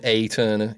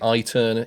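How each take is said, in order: First: The first vowel sounds like 'ay'. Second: The first vowel sounds like 'eye'. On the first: "It could be an A" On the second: "it could be an I"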